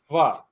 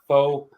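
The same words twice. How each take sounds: First: The vowel is an 'ah' sound. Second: The vowel is not an 'ah' sound. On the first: The speaker calls it right. "That is actually pronounced like an ah" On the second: The speaker calls it wrong. "it is not pho"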